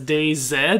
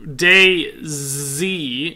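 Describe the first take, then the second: First: The last letter is said as zed. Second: The last letter is said as zee.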